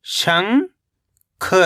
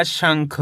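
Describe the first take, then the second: First: शंख as long rising "shang", pause, "kha"; split syllables. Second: Said in the usual way. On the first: Shown as a demonstration. Teacher breaking down शंख for learners, split syllables. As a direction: stretch शंख into two separate syllables. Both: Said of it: "तो मिलके बन जाएगा".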